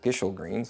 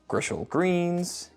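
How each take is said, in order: First: The first name begins with a plain 'g' sound. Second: The first name begins with a 'gr' sound. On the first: The speaker calls it right. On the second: The speaker calls it wrong.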